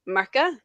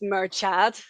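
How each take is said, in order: First: The name ends on a vowel sound. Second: The name ends on a final consonant sound. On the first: The speaker calls it right. "one of the main characters is called Murka" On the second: The speaker calls it wrong. "a lot of people mispronounce it as Murchad"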